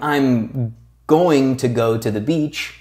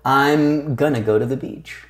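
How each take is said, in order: First: The words 'going to' are said in full. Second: The words 'going to' are squeezed into 'gonna'. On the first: This is careful, formal speech. "instead of saying" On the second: This is casual, informal speech. "when they're speaking fast, will squeeze words together"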